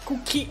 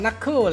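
First: The word begins with a K sound. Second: The word begins with an N sound. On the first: The speaker calls it wrong. "ผมจะออกเสียงเป็นคุกคิกตลอดเลย" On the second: The speaker calls it right. "มันอ่านว่านักเคอร์แหละ"

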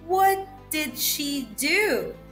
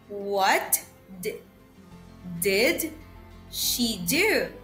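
First: It is said a little faster. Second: It is said slowly. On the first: "Second one, a little bit faster" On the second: "First, I'll read it slowly"

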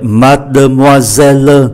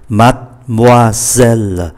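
First: The word is spoken with five full syllables. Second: The word is reduced to three syllables. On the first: "mademoiselle 5 syllab" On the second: "còn lại 3 mademoiselle"

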